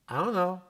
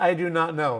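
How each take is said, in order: First: The words are run together in reduced form. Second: Each word is pronounced fully and separately. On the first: "You learn standard English, and then I say something like" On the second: "It means I do not know"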